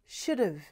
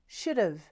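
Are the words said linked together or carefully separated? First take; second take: linked; linked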